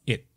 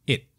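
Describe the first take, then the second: The two takes are said the same way.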